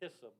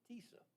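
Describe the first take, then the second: First: The first vowel does not sound like Lisa's. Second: The first vowel sounds like the one in Lisa. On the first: The speaker calls it wrong. "I originally uh, pronounced this Tissa" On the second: The speaker calls it right. "I've been instructed it's like Lisa"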